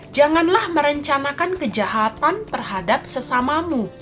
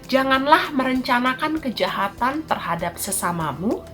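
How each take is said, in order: Both takes have the same delivery.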